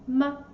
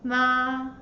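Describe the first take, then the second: First: The syllable is short, light and unstressed. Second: The pitch stays level and high. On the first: "Very light and quick" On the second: "The first tone is flat"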